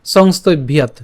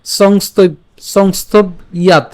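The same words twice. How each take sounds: First: "সংস্তব্যাৎ" as one connected word; joined pronunciation. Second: "সংস্তব্যাৎ" slowly split, pausing before "ইয়াৎ"; broken-up pronunciation. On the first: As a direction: run "সংস্তব্যাৎ" together without a break. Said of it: "আমরা এটা একসাথে উচ্চারণ করবো". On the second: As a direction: sound out "সংস্তব্যাৎ" in separate pieces. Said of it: "শ্লোকটি আর একটু ভেঙে দিয়েছি". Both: Shown as a demonstration.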